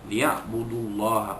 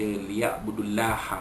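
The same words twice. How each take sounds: First: The L in Allah sounds heavy and thick. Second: The L in Allah sounds light and thin. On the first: The speaker calls it right. "Allah itu dibaca tebal sebab huruf sebelumnya bagi depan" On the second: The speaker calls it wrong. "Tak boleh baca"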